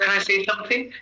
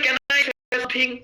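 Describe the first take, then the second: First: Can is weak and linked; say is stressed. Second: Every word gets equal, strong stress. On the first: It is spoken the way native English speakers say it. The speaker calls it right. "এটাকে তারা উইক form বানায় দেবে ... সের উপর জোর পড়লো" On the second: It is spoken the way a Bengali speaker would say it. The speaker calls it wrong. "মানে প্রত্যেকটা ওয়ার্ডে জোর দেওয়া, বাংলায় যেমনি বলি"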